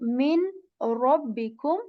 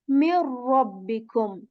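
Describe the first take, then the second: First: The n sound is clearly heard before r. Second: The n sound is dropped and merged into r. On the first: "Rather than saying" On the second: "we skip the sound of noon altogether"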